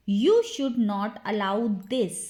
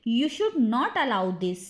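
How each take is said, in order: First: Slowed-down teaching repeat; measured, word-by-word drill. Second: Said in the usual way. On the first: Shown as a demonstration.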